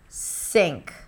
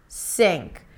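First: The word starts with an S sound. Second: The same.

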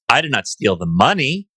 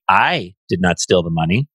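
First: The stress falls on the word 'money'. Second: The stress falls on the word 'I'. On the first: The speaker took something other than the money. "Stole something else, but not the money" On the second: Someone else took the money. "The money was stolen by someone else"

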